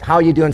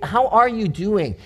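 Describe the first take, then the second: First: It is asked in a flippant, offhand way. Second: It is asked in a sincere, caring way.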